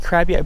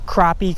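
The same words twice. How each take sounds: First: "crappie" said as KRAP-ee; crappie with short "a". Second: "Crappie" said as KRAH-pee. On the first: Angler roasted for saying it, "crappie" as KRAP-ee. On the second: Angler showing how it's said, "Crappie" as KRAH-pee. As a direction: say "Crappie" with an open ah, like croppy. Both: Shown as a demonstration. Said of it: "People always roast me how I say it".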